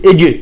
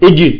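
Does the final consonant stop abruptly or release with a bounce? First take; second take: bounce; bounce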